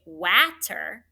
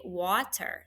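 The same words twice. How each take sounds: First: Water mispronounced as watter with short a; wrong short-a vowel. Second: Water said normally with open aw; correct aw vowel. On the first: Teacher showing what W A T E R doesn't say, short a. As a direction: punch water with a as in apple. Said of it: "doesn't say". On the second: Teacher showing how we say water, aw vowel. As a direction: say water with its usual aw. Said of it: "we say water". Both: Shown as a demonstration.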